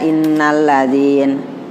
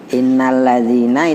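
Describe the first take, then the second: First: The word ends on the 'n' consonant. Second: The word ends with a final 'a' vowel. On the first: The reader stops at this word. "Kalau dia berhenti" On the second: The reading continues without stopping. "itu satu paket"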